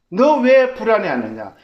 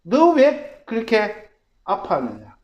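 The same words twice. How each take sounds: First: 왜 lifted and punched, loud and high; stress on 왜. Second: 너 hit first, then a slow falling line; stress on 너, slow. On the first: The Spirit asking the troubled self, stressing 왜. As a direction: lean hard on 왜 in 너 왜 불안해하느냐. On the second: The Spirit gently pressing the hurting self, slow with stress on 너. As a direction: draw out 너 왜 그렇게 아파하느냐 slowly, weight on 너. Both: Acted.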